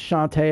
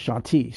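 First: Shante, last syllable rhyming with day; Shante with "-tay" ending. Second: Shanti, last syllable rhyming with see; Shanti with "-tee" ending. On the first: Host showing one way it is pronounced, Shante ending "-tay". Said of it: "I've heard it pronounced". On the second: Host showing the other pronunciation, Shanti ending "-tee". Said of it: "I've heard it pronounced Shanti". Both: Shown as a demonstration.

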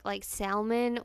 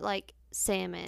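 First: "salmon" as SAL-mun, audible L; L pronounced in salmon. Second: "salmon" as SAM-un; silent L in salmon. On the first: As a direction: say "salmon" with the L sounded. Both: Shown as a demonstration. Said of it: "Is it with an L".

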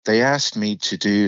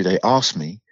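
First: "asked" with a short flat American a, as in cat; American vowel. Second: "asked" with a long British ah, as in father; British vowel. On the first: Actor slipping out of British, "asked" with American short a. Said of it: "my actual natural accent". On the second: Actor correcting himself into British, "asked" with long ah. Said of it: "I have to think about doing". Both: Shown as a demonstration.

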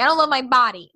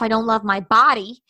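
First: Punched-up "love" in "I don't love my body"; real emphasis. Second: Said in the usual way. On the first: Retold or imitated. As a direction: retell it emphatically, leaning on "love". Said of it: "with real emphasis on". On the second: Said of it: "with real emphasis".

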